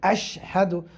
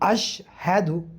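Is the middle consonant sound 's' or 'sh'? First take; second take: sh; sh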